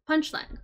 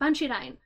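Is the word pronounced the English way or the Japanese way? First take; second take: English; Japanese. First: It is said with English pronunciation. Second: It is said with Japanese pronunciation. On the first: "the title is in English" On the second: "when you pronounce punchline in Japanese, ... it sounds panchirain"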